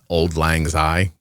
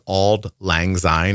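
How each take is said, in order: First: The first word is said as 'old'. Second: The first word is said as 'auld'. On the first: The speaker calls it wrong. "It's not Old Lang Syne" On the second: The speaker calls it right. "Did you know it was Auld Lang Syne?"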